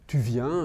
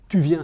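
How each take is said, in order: First: It is said with a questioning intonation. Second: It is said with a commanding intonation. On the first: The speaker is asking whether the listener is coming. "prononcé avec une intonation de question" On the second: The speaker is telling the listener to come. "ça peut être un ordre"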